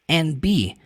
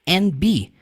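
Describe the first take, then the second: First: The D is dropped, 'and' sounds like just N. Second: The D is dropped, 'and' sounds like just N.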